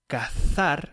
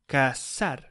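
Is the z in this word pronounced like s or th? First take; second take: th; s. First: The z sounds like English th. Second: The z sounds like an s. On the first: "Instead of saying cazar" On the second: "they say casar, something that sounds like to get married"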